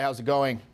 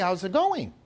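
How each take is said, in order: First: The pitch stays level at the end. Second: The pitch lilts up at the end. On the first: The speaker is not seeking approval. The speaker calls it right. "there's neutral" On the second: The speaker is seeking approval. The speaker calls it wrong. "it like kind of lilts up"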